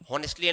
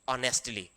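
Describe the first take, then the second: First: The word begins with an h sound. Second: The word begins with a vowel sound. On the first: The speaker calls it wrong. "हॉनेस्टली नहीं" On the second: The speaker calls it right.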